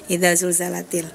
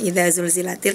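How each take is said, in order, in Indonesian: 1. Vokal setelah 'zulz' adalah 'a'. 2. Vokal setelah 'zulz' adalah 'i'. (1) "agak kepleset dikit jadinya malah idza zulzalatil" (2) "yang harusnya idza zulzilatil"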